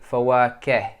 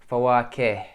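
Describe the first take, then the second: Both takes have the same delivery.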